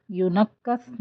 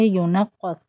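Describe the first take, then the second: First: ینقص with a light کاف; ینقص using plain کاف; wrong light kaf. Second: ینقص, qaf from the throat; ینقص with heavy ق. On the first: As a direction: say ینقص with soft k. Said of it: "ینقص نہیں پڑھیں گے". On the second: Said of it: "قاف پڑھیں گے". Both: Shown as a demonstration.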